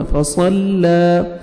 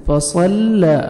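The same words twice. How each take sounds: First: फसल्ला with a light, thin lam, slowly drawn out; correct tajweed. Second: फसल्ला with a heavy, full lam, falling at the end; wrong pronunciation. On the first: Teacher models the correct reading for students, thin lam. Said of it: "फसल्ला नहीं पढ़ना". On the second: Teacher demonstrates the wrong heavy lam to students. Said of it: "फसल्ला गलत हो जाएगा". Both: Shown as a demonstration.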